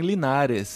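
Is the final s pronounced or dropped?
pronounced. The final s is pronounced.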